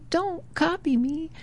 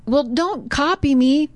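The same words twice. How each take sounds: First: The same words much softer, fading; faint echo. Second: Boy calls out high, mock annoyed. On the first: Retold or imitated. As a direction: throw it back as a distant echo. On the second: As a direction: tell the echo off. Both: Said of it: "So he's hearing the echo".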